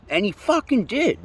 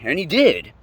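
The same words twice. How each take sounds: First: High, drawn-out "fucking"; stress on FUCKING. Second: Said in the usual way. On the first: Real, not acted. Driver recalling he got tested, "fucking" hit incredulously. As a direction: stretch and lift "fucking" in disbelief. Repeats line with added emphasis.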